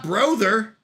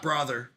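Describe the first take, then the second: First: "brother" said as BROH-ther, long O; "brother" with a drawn-out long O; deliberate mispronunciation. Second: "brother" said as BRAH-ther; "brother" with an AH vowel, not UH; deliberate mispronunciation. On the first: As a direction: rhyme the first half of "brother" with "bro". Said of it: "It's not brother". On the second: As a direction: open "ah" in the first syllable of "brother". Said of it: "It's also not brother". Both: Shown as a demonstration.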